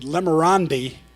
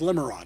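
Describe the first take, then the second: First: The name ends with an extra 'ee' sound. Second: The name ends on the 'd' sound. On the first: A close friend's affectionate nickname. The speaker calls it wrong. "the only man on the face of the earth that could call me Lemerandi" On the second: The proper name. The speaker calls it right. "The name is Lemerand. It's French"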